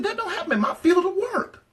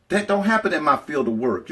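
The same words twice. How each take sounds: First: "That don't happen in my field of work" squealed very high with a laugh. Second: Said in the usual way. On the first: Retold or imitated. Telling her friends what she said to herself, in a very high laughing squeal. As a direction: pitch it way up and giggle through "field of work". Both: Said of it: "And I said".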